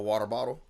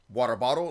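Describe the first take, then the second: First: The stress falls on the first syllable. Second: The stress falls heavily on the second syllable.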